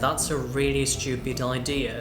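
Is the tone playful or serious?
serious. It is said in a serious, flat tone. "진지하게"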